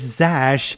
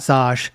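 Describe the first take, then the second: First: The vowel sounds like the one in 'cat'. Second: The vowel sounds like the one in 'cot'. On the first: The speaker calls it right. "It's Zash" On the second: The speaker calls it wrong. "not Zosh"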